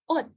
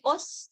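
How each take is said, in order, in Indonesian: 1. Kata ini berakhir dengan bunyi t. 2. Kata ini berakhir dengan bunyi s. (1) "Siut di bawah itu dibaca T" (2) "Apakah dia jadi os? Enggak"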